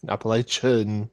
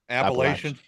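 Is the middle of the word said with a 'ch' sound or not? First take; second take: ch sound; no ch. First: The middle consonant is a 'ch' sound. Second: The middle consonant is not a 'ch' sound. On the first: The speaker calls it wrong. "It's not the Appalachian Cha" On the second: The speaker calls it right. "That's how you say it"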